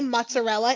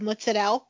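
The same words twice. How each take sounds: First: It is said in an English-sounding way. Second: It is said in an Italian-sounding way. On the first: The speaker calls it wrong. "when people say mozzarella instead of" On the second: The speaker calls it right. "the Italian in me"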